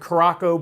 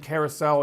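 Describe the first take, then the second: First: The word ends with a 'ko' sound. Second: The word ends with a 'sow' sound. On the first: The speaker calls it wrong. "a lot of people pronounce it Caraco" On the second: The speaker calls it right. "but it's actually Carousel"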